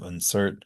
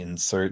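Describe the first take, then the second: First: The first vowel is a reduced schwa sound. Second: The first vowel is a short 'ih' sound.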